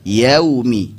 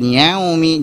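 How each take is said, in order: First: "Yaumi" with a pure oral AU; clear, not nasal. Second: "yaumi" with a nasal AU; wrongly nasalised. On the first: Teacher correcting students, "Yaumi" with clean oral AU. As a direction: keep "Yaumi" out of the nose. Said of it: "jangan sampai masuk ke hidung". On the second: Teacher showing what to avoid, "yaumi" nasalised. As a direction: push "yaumi" through the nose. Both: Shown as a demonstration.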